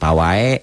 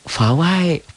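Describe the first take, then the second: First: The word begins with a p sound. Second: The word begins with an f sound. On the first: The speaker calls it wrong. "bukan pawai gitu ya" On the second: The speaker calls it right. "Fawai Fawai"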